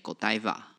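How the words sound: The name is said the English way. "英文母语人士会念狗地吧"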